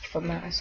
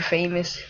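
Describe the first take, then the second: First: The word is not said like 'famous'. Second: The word is said like 'famous'. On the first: The speaker calls it right. "I think that's how you say it" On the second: The speaker calls it wrong. "some people say famous"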